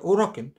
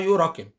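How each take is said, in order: First: The word begins with an 'oo' sound. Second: The word begins with a 'you' sound. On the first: The speaker calls it right. "هي بتتنطق آه، اوراكن" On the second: The speaker calls it wrong. "لو الاوراكن هنطقها بالانجلش يبقى هنطقها يوراكن"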